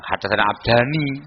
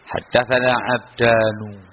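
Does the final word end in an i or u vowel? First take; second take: i; u. First: The name ends with an i vowel. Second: The name ends with an u vowel. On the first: The word is treated as a dual noun. The speaker calls it wrong. "bukan haddatsana abdani" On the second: The word is treated as a personal name. The speaker calls it right. "maka dibaca haddatsana abdanu"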